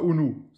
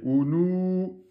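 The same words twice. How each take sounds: First: The final vowel is short, one count. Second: The final vowel is long, two counts. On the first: The speaker calls it wrong. "C'est pas ounou" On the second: The speaker calls it right. "Deux temps"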